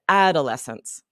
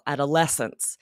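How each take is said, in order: First: The stress falls on the first syllable. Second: The stress falls on the 'les' syllable. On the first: The speaker calls it wrong. "with the emphasis on that first syllable" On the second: The speaker calls it right. "syllable that's emphasized is that es in the middle"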